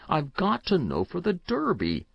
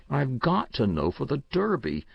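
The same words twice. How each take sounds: First: Repeated plea pitched higher; boy reiterating. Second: Lightly voiced boy, urgent; a child pressing his point, slightly raised; boy insisting. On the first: Boy repeating to Uncle Oscar, higher desperate insistence. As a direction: press it again, more desperate and higher. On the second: Boy pleading with his uncle, urgent insistence. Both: A narrator's reading. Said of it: "the child reiterated".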